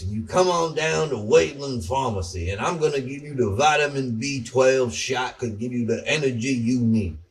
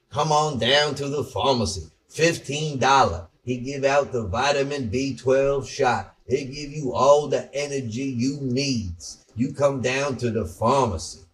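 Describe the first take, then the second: First: A Southern pharmacy owner selling shots; imitating a Southern pharmacist. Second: Hammed-up Southern small-town pharmacy ad voice; imitating a Southern pharmacist. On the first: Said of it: "he talks like, like this". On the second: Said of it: "talk like this guy who's in this market".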